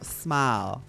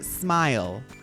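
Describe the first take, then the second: First: It is said in a Southern accent, mouth wide. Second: It is said in a plain, unmarked accent. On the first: The speaker calls it right. "No, smile. Say everything in a smile" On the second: The speaker calls it wrong. "you want to say smile"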